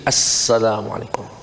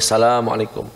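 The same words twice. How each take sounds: First: The word begins with an 'as' sound. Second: The word begins directly with a 'sa' sound. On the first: The speaker calls it right. "Kalau sholat mesti assalamualaikum" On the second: The speaker calls it wrong. "nggak boleh assalamualaikum"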